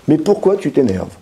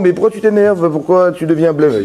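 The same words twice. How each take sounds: First: Gentle question. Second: Higher, baffled questioning of the angry man; puzzled question. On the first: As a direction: ask kindly, really wanting to know. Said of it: "Hachem s'adresse à la vraie personne". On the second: Hashem asking Cain why he is angry, higher and baffled. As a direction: ask why he is upset as if it makes no sense. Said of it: "il me demande". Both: Retold or imitated.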